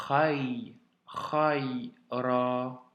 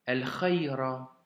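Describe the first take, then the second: First: Khay held, then khay and ra drawn out; sounds linked step by step. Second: Slow El khayra as one joined phrase; linked whole word. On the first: Teacher making the liaison for a pupil, khayra built slowly. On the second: Teacher giving the finished reading, El khayra slow and linked. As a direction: join el and khayra smoothly, unhurried. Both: Shown as a demonstration. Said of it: "Nous faisons du coup la liaison".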